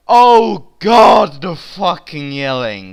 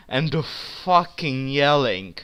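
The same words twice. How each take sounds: First: Exasperated. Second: Said in the usual way. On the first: Real, not acted. Exasperated repeat.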